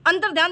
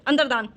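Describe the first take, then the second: First: अंतर्ध्यान with a y, antar-dhyaan; wrong form shown. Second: अंतर्दान without a y, antar-daan; falling antar-daan for अंतर्दान; correct form shown. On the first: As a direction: sound the dhy in अंतर्ध्यान. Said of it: "इस तरीके से ये शुद्ध है". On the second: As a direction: drop the y glide in अंतर्दान. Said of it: "ये शुद्ध है". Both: Shown as a demonstration.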